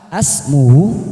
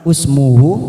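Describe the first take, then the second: First: The word begins with an a vowel. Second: The word begins with an u vowel. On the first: "Ataukah dikasih fathah asmuhu? Juga bukan" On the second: "Apakah ini dikasih dumah usmuhu? Bukan"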